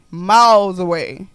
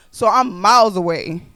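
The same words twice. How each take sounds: First: Miles away drawn out slowly and louder; emphatic repeat. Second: Said in the usual way. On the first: Retold or imitated. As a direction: lean on miles away to stress the distance. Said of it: "repeated slower for emphasis". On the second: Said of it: "repeats phrase for emphasis".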